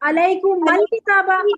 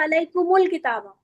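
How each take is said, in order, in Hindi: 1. इन शब्दों को a स्वर से जोड़ा जाता है। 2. इन शब्दों को u स्वर से जोड़ा जाता है।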